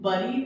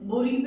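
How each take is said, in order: First: The first vowel sounds like 'u' in 'cup'. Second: The first vowel sounds like 'oo'. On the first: "बरी भी बोल देते हैं" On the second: "बुरी भी बोल देते हैं"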